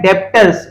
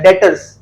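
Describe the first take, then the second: First: The b sound is pronounced in the word. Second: The b sound is left out of the word. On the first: The speaker calls it wrong. "इसको देखो लिखा हुआ है डेप्टर्स" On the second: The speaker calls it right. "इसमें बी silent होता है"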